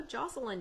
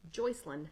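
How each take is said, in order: First: "Jocelyn" said with a short JOSS first syllable, as the transcript spells it; "Jocelyn" with the first vowel as in "boss"; "Jocelyn" pronounced JOSS-eh-lin; wrong name pronunciation. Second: "Joycelyn" said with JOYCE as the first syllable; "Joycelyn" with the first vowel as in "choice"; "Joycelyn" pronounced JOYCE-eh-lin; corrected name pronunciation. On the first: Real, not acted. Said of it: "Did I pronounce that correctly?". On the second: Shown as a demonstration. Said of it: "Joycelyn, not Jocelyn".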